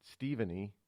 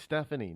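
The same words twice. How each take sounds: First: Stephanie said as "Steven-ee"; "Stephanie" built on Steven; mock mispronunciation. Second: Stephanie said as "STEF-uh-nee"; "Stephanie" starting like Stef; standard pronunciation. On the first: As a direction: say Stephanie with a long ee in the first syllable. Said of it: "not Stephanie". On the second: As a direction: say Stephanie with a short e first. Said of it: "it's, it's Stephanie, not Stephanie". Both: Shown as a demonstration.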